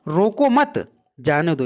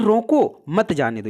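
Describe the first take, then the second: First: The pause comes right after 'mat'. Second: The pause comes right after 'roko'. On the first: Do not stop the person; let them go. "यानी किसी को रोकना नहीं है, उसको जाने देना है" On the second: Stop the person; do not let them go. "यानी बोला जा रहा है कोई पर्सन जा रहा है उसको रोक लो, उसको जाने मत दो"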